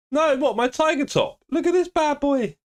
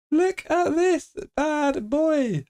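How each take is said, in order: First: Very high squeaky exclamation; high voice at a normal clip; high-pitched showing off. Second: Very high, very slow; slow-motion high-pitched boast; drawn-out showing off. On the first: Showing off his tiger top. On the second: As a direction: stretch every word out long and high. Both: Real, not acted.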